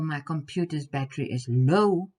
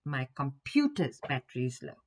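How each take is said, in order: First: The word low is stressed. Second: The word computer's is stressed. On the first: The battery is low rather than high. "instead of it being high" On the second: It is the computer, not the phone, whose battery is low. "instead of my cell phone's battery"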